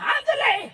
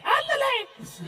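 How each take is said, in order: First: High, loud urgent shout of ándale in a hammed-up Mexican accent; mock Mexican accent. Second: High ándale in a hammed-up Mexican accent, falling away at normal volume; mock Mexican accent. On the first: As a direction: yell ándale in an overdone Mexican accent to hurry everyone off. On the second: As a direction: let ándale trail off in an overdone Mexican accent. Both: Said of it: "They're like".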